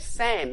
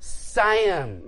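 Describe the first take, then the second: First: The vowel is short and clipped. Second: The vowel is long and drawn out. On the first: This is the Australian way. "they don't say Sam" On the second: This is the American way. "they say Sam. They draw it out"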